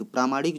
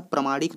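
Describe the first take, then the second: First: प्रामाणिक with a long first aa, pra-maa-nik; correct spelling said. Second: प्रामाणिक with a short first vowel, pra-ma-nik; wrong spelling said. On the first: Teacher showing exam students the correct spelling, careful clear pronunciation. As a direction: say प्रामाणिक carefully as praamaanik, stretching the first vowel. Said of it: "प्रामाणिक जो है शुद्ध शब्द होता है". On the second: Teacher showing exam students the common wrong spelling, short vowel. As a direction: say प्रामाणिक quickly as pramanik, short a after pr. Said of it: "प्रामाणिक नहीं होता है".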